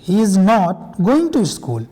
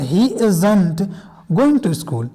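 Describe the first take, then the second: First: "Is not" is said as two separate words. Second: "Is not" is joined into one word, "isn't". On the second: "इज नॉट को आप साथ में भी बोल सकते हैं, इजंट"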